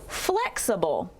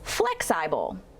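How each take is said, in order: First: Short first vowel, unstressed uh second vowel. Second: Short first vowel, long second vowel: flex-eye-bull. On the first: The speaker calls it right. "Let's use the unstressed uh sound for the second syllable" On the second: The speaker calls it wrong. "making a short sound in our first syllable"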